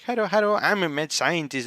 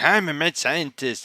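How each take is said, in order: First: Higher, sing-song mockery of his boast; mocking Kurisu. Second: Lightly voiced proud declaration; a hint of Okabe announcing himself grandly; Okabe's boast. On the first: Kurisu mocking Okabe's boast, higher teasing sing-song. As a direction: parrot his line back in a teasing lilt. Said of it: "and she's like". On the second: Okabe boasting to Kurisu, a lightly voiced proud claim. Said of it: "conversation between Kurisu and Okabe is like".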